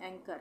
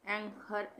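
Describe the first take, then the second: First: "एंकर" with a plain k; silent h. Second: "एंकर" said as ang-har, h sounded; wrong pronunciation. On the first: Teacher models the right reading, plain k in "एंकर". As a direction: say "एंकर" as ang-kar, no h. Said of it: "तो एच silent है". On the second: Teacher shows what not to read, h heard in "एंकर". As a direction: breathe an h into the second syllable of "एंकर". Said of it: "इस तरह से नहीं पढ़ रहे ना". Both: Shown as a demonstration.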